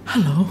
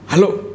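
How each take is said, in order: First: It is said in a soft, breathy voice. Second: It is said in a plain, brisk voice. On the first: The speaker calls it right. "coba sedikit mendesak" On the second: The speaker calls it wrong. "jangan bilang"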